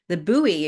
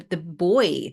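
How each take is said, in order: First: The word has an American pronunciation. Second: The word has a non-American pronunciation.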